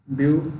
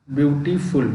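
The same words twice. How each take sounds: First: ब्यूटीफुल broken into ब्यू, टी, फुल with long pauses; syllable by syllable. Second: Said in the usual way. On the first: Shown as a demonstration. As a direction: say ब्यूटीफुल in three separate beats. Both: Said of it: "दो syllable से ज़्यादा वाले हैं".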